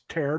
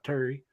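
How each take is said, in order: First: The word ends without an 'ee' vowel. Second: The word ends with an 'ee' vowel. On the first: The speaker calls it right. "It's terre" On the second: The speaker calls it wrong. "not Terry"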